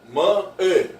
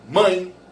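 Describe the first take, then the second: First: The word is split into two separate syllables. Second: The word is said as one gliding syllable. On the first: The speaker calls it wrong. "Ninguém fala assim" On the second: The speaker calls it right. "a voz sai de uma vez só"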